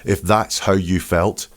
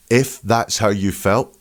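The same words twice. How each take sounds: First: Said in the usual way. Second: "if" drawn out and punched, then a pause; "if" singled out as the telling word; stress on if. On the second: Retold or imitated. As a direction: lean pointedly on "if". Repeats quote to expose slip.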